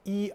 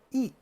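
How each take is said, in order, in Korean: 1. 이 음절은 높은 평평한 성조입니다. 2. 이 음절은 급하게 떨어지는 성조입니다. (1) "이 제일성으로 읽어요" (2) "이 제사성으로 발음합니다"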